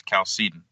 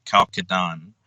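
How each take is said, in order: First: Chalcedon said the English way, starting with a K sound; anglicised "Chalcedon", hard K at the start; English pronunciation. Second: Chalcedon said closer to the original language; scholarly, un-anglicised "Chalcedon"; original-language pronunciation. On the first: Guest answers host on saying Chalcedon, English pronunciation with initial K. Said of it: "with a K sounding at the beginning". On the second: Guest quotes linguists' version of Chalcedon, original-language pronunciation. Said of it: "closer to the linguistic knowledge of the original".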